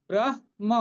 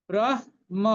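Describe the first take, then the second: Both takes have the same delivery.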